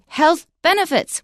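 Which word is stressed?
benefits. The stress falls on the word benefits. The speaker calls it wrong. "we don't say"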